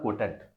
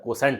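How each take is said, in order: First: The middle consonant is a T sound. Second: The middle consonant is an S sound. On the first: The speaker calls it wrong. "कोई इसको पढ़ता है, कोटेंट पढ़ता है... लेकिन कोटेंट नहीं होता है" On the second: The speaker calls it right. "कोसेंट होता है"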